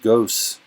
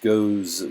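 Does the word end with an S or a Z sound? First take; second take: S; Z. First: The word ends with a hissing S sound. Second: The word ends with a buzzing Z sound. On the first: The speaker calls it wrong. "the word's not goes" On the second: The speaker calls it right. "It's goes. So we use the Z to represent that sound"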